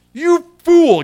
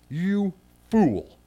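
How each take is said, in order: First: Loud, much higher cry of "You fool"; "You fool" shouted high and hard, no sugarcoating; strong rebuke. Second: Said in the usual way. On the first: Acted. Preacher repeating God's words to the rich man, loud high rebuke. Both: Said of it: "There's no way to sugarcoat that".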